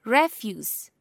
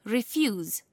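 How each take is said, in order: First: REF-use, short e and final s sound; first-syllable stress. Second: Ri-FUSE, final z sound; second-syllable stress. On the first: Teacher showing noun stress to learners, first-syllable stress. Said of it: "stress is placed on the first syllable". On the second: Teacher showing verb stress to learners, second-syllable stress. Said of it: "stress is placed on the second". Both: Shown as a demonstration.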